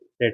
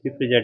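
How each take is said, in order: First: It is said as one short syllable, 'frate'. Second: It is read with the spelled letters sounded. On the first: The speaker calls it right. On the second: The speaker calls it wrong.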